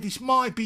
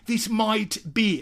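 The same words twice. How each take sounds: First: The T of might is dropped. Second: The T of might is clearly pronounced. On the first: The speaker calls it right. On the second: The speaker calls it wrong.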